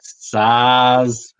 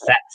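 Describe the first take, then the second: First: It is said the common Australian way. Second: It is said the Czech-style way. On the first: "how I say it, but in most Australians say that" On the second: "but I think it's SATS or something"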